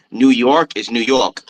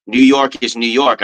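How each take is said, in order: First: Said in the usual way. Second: Slow, drawn-out New York accent on New York. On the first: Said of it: "didn't have it the other time". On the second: Shown as a demonstration. Replaying his own video clip with the New York accent. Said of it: "I had it in the one".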